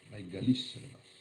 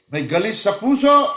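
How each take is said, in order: First: Said in the usual way. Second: Sudden high, loud cry on puso; fiery preacher's cry; preaching shout. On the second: Acted. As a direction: shout it out to the congregation. Preacher contrasts inner and outer.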